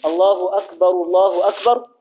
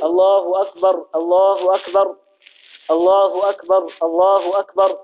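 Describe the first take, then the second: First: First أكبر ends in -ru, running into الله; connected pair, damma on the first أكبر, silent R on the last; first R voweled, joined. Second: Every أكبر stopped on a bare R; slow, separate phrases, each أكبر ending in silent R; both Rs unvowelled. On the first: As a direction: link it as akbaru-llahu akbar. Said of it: "ويصل بينهما". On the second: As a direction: keep each الله أكبر unjoined, closing on R. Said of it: "إما أن تسكن". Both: Shown as a demonstration.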